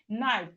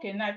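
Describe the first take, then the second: First: The word starts directly with the N sound. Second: A K sound is heard before the N. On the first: The speaker calls it right. "it is knife" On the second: The speaker calls it wrong. "it's not K knife"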